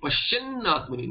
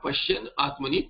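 First: The n sound before the vowel is doubled. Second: The n sound before the vowel is single. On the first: The speaker calls it right. "Nakara will double" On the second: The speaker calls it wrong. "not Pashyan Atmani"

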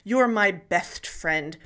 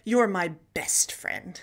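First: The s sound is lisped as th. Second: The s sound is a plain s. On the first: This is the old way of speaking. "instead of saying" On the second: This is the newer, commonly used way. "drops that th and takes up the s"

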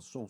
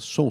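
First: The voice sounds thinner, distant and muffled. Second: The voice sounds full, close and clear. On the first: The speaker calls it wrong. "do que aqui" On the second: The speaker calls it right. "o som dele é muito melhor aqui"

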